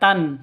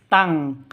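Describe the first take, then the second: First: The syllable ends with a plain n sound. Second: The syllable ends with a nasal ng sound. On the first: The speaker calls it wrong. "bukan tan" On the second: The speaker calls it right. "tapi tang"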